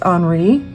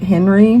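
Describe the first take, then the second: First: The name sounds different from the English Henry. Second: The name sounds like the English name Henry. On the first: This is how the name is actually said. The speaker calls it right. "but I guess it's Henri" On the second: This is how the speaker has always said it. The speaker calls it wrong. "I've always pronounced it Henry"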